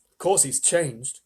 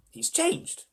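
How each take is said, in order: First: Slow, amused reassurance; amused, laughing manner. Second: Put-on high, startled old-man voice; Grandpa Joe. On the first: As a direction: say it slowly, as if obvious. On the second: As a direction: exclaim it high, amazed at the sight. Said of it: "said Grandpa Joe". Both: A narrator's reading.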